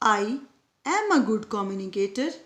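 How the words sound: The stress falls on the word 'am'. "यहाँ पर एम को स्ट्रेस किया गया था"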